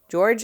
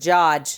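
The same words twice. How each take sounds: First: It is said in a plain, general American accent. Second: It is said in a Boston accent.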